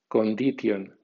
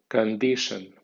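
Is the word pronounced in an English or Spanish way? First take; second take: Spanish; English. First: It is read with Spanish letter sounds. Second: It is read with English sounds and stress. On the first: "como si fuera española" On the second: "en pronunciación inglesa"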